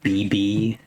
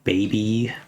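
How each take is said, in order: First: The word is said fast, clipped like two letters. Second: The word is said fully with both syllables clear. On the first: "It's so fast that it sounds more like B B" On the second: "than it does sound like baby"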